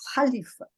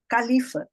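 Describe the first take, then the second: First: The first consonant is a strong H sound. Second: The first consonant is a hard K sound. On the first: The speaker calls it right. "na verdade é Halifa" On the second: The speaker calls it wrong. "A gente fala Califa"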